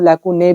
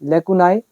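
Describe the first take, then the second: First: The word ends with an 'ay' sound. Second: The word ends with an 'eye' sound. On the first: "लेकुने भी बोल देते हैं" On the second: "यहाँ पे देखो आपके सामने लेकुनाई"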